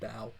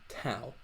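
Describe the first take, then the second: First: The first consonant has no puff of breath. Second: The first consonant has a strong puff of breath. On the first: The speaker calls it right. "You don't feel it" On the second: The speaker calls it wrong. "it makes a breath on your palm"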